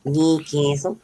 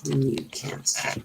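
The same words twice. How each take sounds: First: "Newcastle" said as /nikesəl/, the Australian way; corrected "Newcastle", rising; Aussie pronunciation. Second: "Newcastle" said slowly as /nukæs/, the wrong way; drawn out, mispronounced "Newcastle"; wrong pronunciation. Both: Shown as a demonstration. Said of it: "No, not Newcastle".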